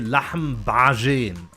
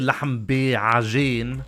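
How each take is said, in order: First: The two words are run together smoothly. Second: The second word is split, with a separate middle syllable. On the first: This is how the speaker's own dialect says it. "I put it everything together" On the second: This is a form the speaker's dialect does not use. "I don't say lahm bi'ajin"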